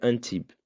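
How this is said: It is said with a French pronunciation. The speaker calls it right. "mas se pronuncia Antibes"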